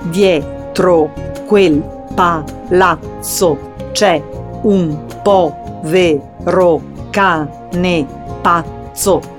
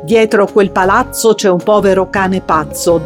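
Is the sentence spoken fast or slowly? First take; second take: slowly; fast. First: It is spoken slowly, syllable by syllable. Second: It is spoken fast, without separated syllables. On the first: "sillabandoli bene in una prima fase" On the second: "aumentare gradualmente la velocità"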